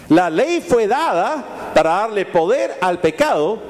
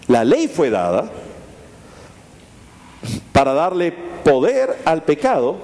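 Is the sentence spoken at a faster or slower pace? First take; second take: faster; slower. First: The sentence is spoken at normal speed. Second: The sentence is spoken more slowly.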